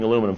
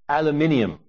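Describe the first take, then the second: First: It has four syllables, ending in -num. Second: It has five syllables, ending in -nium.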